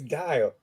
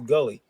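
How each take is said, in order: First: The name is said as one syllable, Guile. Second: The name is said as two syllables, Gully. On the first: The speaker calls it right. "that's that's Guile" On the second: The speaker calls it wrong. "No, it says Gully"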